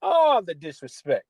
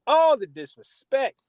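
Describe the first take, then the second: First: Said in the usual way. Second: Higher, louder and slower on ALL; louder outraged repeat. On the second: Real, not acted. Podcaster to fans, repeating the insult louder. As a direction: stretch out All the disrespect, outraged. Host ranting about rival team.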